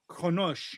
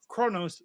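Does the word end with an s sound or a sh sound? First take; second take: sh; s. First: The word ends with a sh sound. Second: The word ends with a plain s sound. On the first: This is the name as said in its own language. The speaker calls it right. "that capital S is the sh sound" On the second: This is the English way of saying the name. The speaker calls it wrong. "Galactic Standard would, would pronounce it Kronos spelled K R N O S"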